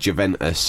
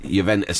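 First: The name gets an anglicized pronunciation. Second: The name gets an Italian-style pronunciation. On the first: The speaker calls it wrong. "instead of" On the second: The speaker calls it right. "with the proper fucking pronunciation"

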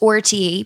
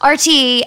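First: The letter R sounds like 'or'. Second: The letter R sounds like 'ar'.

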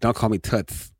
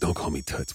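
First: The voice is put on higher and lighter. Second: The voice is put on low and deep.

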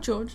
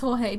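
First: The name is said in an Australian way. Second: The name is said in a non-Australian way. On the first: "Depending on how Australian you are" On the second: "it is Jorge"

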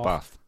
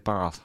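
First: It is said in a plain local accent. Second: It is said in a posh accent. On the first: The speaker is an ordinary local. "not Bath" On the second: The speaker is wealthy and status-conscious. "They're that posh, they'll say Bath"

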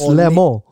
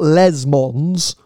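First: No S sound is pronounced at the end. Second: An S sound is pronounced at the end. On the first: The speaker calls it right. "you don't pronounce the S at the end, it's Le Mans" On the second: The speaker calls it wrong. "it's not Les Mans"

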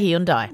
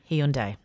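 First: The ending does not rhyme with Sunday. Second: The ending rhymes with Sunday. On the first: The speaker calls it wrong. "you said it wrong" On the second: The speaker calls it right. "like Sunday"

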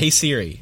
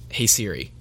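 First: It is said at normal loudness. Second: It is said very quietly.

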